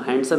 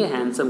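First: हैंडसम as "HAND-sum"; wrong handsome, d sounded. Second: हैंडसम as "HAN-sum"; correct handsome, silent d. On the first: Teacher rejects a mistake, हैंडसम as "HAND-sum". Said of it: "नहीं कहेंगे". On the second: Teacher gives pupils the right form, हैंडसम as "HAN-sum". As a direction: drop the d in हैंडसम. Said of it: "हैंडसम कहेंगे". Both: Shown as a demonstration.

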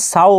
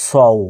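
First: "সাউ" with a thin open "sau" vowel; wrong light vowel. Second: "সউ" with a heavy s and rounded "sou"; heavy rounded vowel. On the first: Teacher shows learners the mistake to avoid, "সাউ" as thin "sau". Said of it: "এখানে সাউ বলবেন না". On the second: Teacher gives learners the correct syllable, "সউ" as heavy "sou". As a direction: say "সউ" full-mouthed, o not a. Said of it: "কি বলবেন?". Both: Shown as a demonstration.

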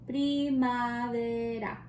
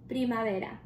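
First: Primavera said very slowly, every syllable drawn out; slow model word. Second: Said in the usual way. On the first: Shown as a demonstration. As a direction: spell out Primavera slowly for kids to copy. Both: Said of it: "Can you say primavera?".

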